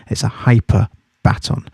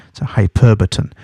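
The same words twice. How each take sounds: First: "hyper baton" said as two words, like a relay baton; split pronunciation. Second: "hyperbaton" run together, stress on PER, hy-PER-ba-ton; correct pronunciation. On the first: Teacher breaking down the term for students, word split apart. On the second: Teacher giving the proper term to students, smooth single word. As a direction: say "hyperbaton" as one word, stress on the second syllable. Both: Shown as a demonstration.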